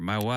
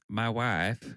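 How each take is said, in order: First: It is said in his normal voice. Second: It is said in a Borat impression.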